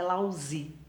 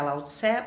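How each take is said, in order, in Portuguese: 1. A segunda sílaba soa como 'zi'. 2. A segunda sílaba soa como 'tse'. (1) "a pronúncia correta em chinês parece que é Lao Zi" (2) "a gente aqui no Brasil costuma é, pronunciar Lao Tse"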